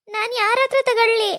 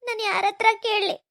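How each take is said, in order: First: Crying. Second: Said in the usual way. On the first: Acted. Widow asking who will bless her, sobbing. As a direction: cry it out, stressing ಹತ್ರ through tears. Woman lamenting her lost husband.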